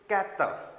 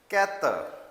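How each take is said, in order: First: The R sound is light and barely heard. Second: The R sound is light and barely heard.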